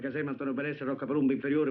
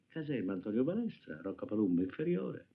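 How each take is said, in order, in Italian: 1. Le parole vengono lette ad alta voce. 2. Le parole vengono lette piano, con sentimento. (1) "Più forte, per cortesia" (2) "Piano, con un po' di sentimento"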